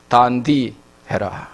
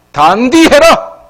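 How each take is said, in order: First: Low, slow Gyeongsang delivery; Gyeongsang dialect. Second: High, loud, drawn-out exhortation; forceful admonition. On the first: Shown as a demonstration. Preacher gives congregation the local phrase, low Gyeongsang dialect. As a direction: state it simply in Gyeongsang dialect, pitched down. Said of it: "우리 경상도 말로는". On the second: Acted. Preacher admonishing the witnesses, high emphatic Gyeongsang command. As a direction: drive it home loudly, stretching the words.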